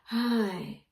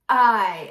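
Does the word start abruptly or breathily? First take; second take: breathily; abruptly. First: The word starts with breath before the voice. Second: The word starts with an abrupt glottal onset.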